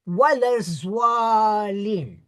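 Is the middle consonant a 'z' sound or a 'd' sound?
z. The middle consonant sounds like a 'z'. "change it to Zwad, which is correct"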